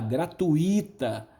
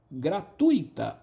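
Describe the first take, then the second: First: The stress falls on the syllable i. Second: The stress falls on the syllable tu. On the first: The speaker calls it wrong. "A maioria fala gratuita" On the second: The speaker calls it right. "é tui, tui"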